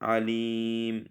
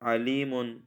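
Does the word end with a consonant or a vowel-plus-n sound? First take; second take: consonant; vowel-plus-n. First: The word ends on a bare m consonant. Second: The word ends with a short vowel and n. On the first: The reader stops on this word. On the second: The reader continues without stopping.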